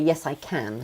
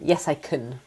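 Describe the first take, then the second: First: The vowel in can is full and strong. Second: The vowel in can is weak and reduced. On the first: The speaker calls it right. "You have to say" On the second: The speaker calls it wrong. "it would be completely wrong if you said"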